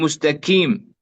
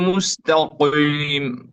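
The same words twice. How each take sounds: First: The q is pronounced almost like a k. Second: The q is pronounced very heavy and thick. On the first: "أن ننحو بمخرجها إلى مخرج الكاف ... هذا خطأ" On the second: "عدم المبالغة في تفخيمها ... لا نقول ... خطأ"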